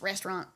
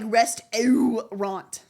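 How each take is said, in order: First: The middle syllable is dropped entirely. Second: Every syllable, including the middle one, is pronounced. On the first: This is how the southern accent says it. "Like there was no middle, just restaurant" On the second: Saying it this way helps recall the spelling. "I always go like restaurant to remember how to spell it"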